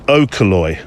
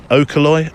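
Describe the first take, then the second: First: Okoloi said as a flat statement, falling at the end. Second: Okoloi said as a question, rising at the end. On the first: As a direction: state Okoloi plainly, letting it drop. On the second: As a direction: ask Okoloi, pitch going up. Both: Shown as a demonstration. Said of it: "I sound like a Brummie".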